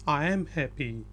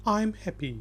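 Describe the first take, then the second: First: 'I am' is said as two full words. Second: 'I am' is contracted into one syllable. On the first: This is the written form. "लिखने में ये ये बिल्कुल ठीक है" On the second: This is how native speakers usually say it. "बोलने में आमतौर पे नेटिव स्पीकर बोलेगा आई अपोस्ट्रॉफी एम हैप्पी"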